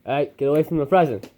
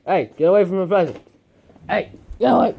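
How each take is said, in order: First: Said in the usual way. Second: Louder, faster and higher shooing. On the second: Real, not acted. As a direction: chase the puppy off the present. Shooing puppy from present.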